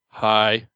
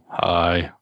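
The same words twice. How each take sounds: First: It is said in an upbeat, lively way. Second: It is said in a mellow, subdued way.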